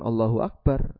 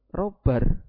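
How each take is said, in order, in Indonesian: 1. Setiap suku kata dalam frasa itu diucapkan dengan lengkap. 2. Suku katanya diucapkan terburu-buru dan menyatu menjadi satu kata. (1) "Ini yang dibaca bukan Allahu Akbar" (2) "terlalu cepat ngomong ... Dempet-dempet antara suku kata A dengan suku kata B"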